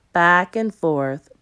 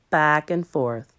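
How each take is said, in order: Both takes have the same delivery.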